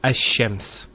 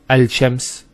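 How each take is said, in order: First: The l merges into a doubled sh sound. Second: The l is pronounced separately before sh. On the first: The speaker calls it right. "which flows and is nicer to hear" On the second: The speaker calls it wrong. "it's not smooth"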